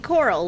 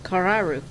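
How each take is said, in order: First: It is pronounced like the English word coral. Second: It is pronounced with Japanese sounds, kararu. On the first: "like the coral in the Great Barrier Reef" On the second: "how the Japanese pronounce it"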